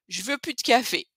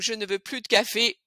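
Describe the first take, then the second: First: Ne and the l of plus are both dropped. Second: Ne and the l of plus are both said.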